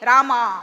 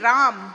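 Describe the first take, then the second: First: The name ends with an a vowel. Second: The name ends without a final vowel. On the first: This is the South Indian way of saying it. The speaker calls it wrong. "you South Indians ca- say Rama" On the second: This is the North Indian way of saying it. The speaker calls it right. "It's actually Ram"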